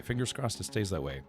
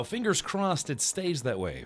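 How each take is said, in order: First: Quiet. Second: Said in the usual way. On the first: Real, not acted. Repeat, dropped to a murmur.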